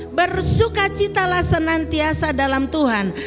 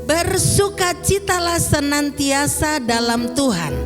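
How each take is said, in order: No difference in how they are said.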